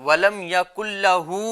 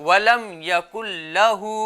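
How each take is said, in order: No difference in how they are said.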